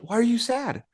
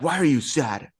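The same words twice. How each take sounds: First: It sounds like a genuinely curious question. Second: It sounds dismissive rather than genuinely questioning. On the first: The speaker truly wants to know the reason. The speaker calls it right. "very question, ... with genuine curiosity" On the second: The speaker is not really interested in the answer. The speaker calls it wrong. "wouldn't say like"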